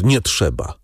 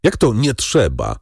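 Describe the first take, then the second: First: Understated, forced-out NIE TRZEBA; choked out. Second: Higher, challenging JAK TO; exclaimed question. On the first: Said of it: "wykrztusił pan de Villefort". (wykrztuszone „nie trzeba”) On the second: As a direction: stress "Jak", querying the refusal in mild disbelief. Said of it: "zawołał przewodniczący". (zdziwiony okrzyk przewodniczącego) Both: A narrator's reading.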